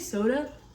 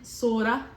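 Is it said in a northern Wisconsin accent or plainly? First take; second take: plainly; northern Wisconsin. First: It is said in the speaker's plain voice. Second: It is said in a northern Wisconsin accent.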